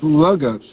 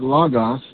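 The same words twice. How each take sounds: First: The word is said with an English pronunciation. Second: The word is said with a Greek pronunciation. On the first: "That word in the Greek is logos" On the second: "or as they would have pronounced it"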